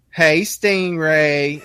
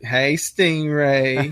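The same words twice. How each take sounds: First: Slow, drawn-out sultry "Hey, Stingray"; wife's flirty greeting. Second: Slow drawn-out "Hey, Stingray" with a rising end; wife's flirty greeting. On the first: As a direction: stretch "Hey, Stingray" out slowly, cooing. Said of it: "She was like". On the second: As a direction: coo it slowly to the guest. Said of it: "she's like". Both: Retold or imitated.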